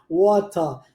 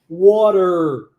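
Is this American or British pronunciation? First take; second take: British; American. First: The final r is open and the t is clear. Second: The final r is closed and the t flaps. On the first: "Mas no inglês britânico, esse R é mais aberto. E o T tem o som de T" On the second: "Olha como isso é fechado no inglês americano"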